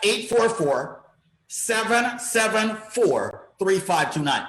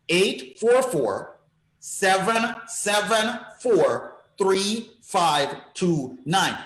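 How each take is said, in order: First: The number is said at normal fast speed. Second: The number is said slowly.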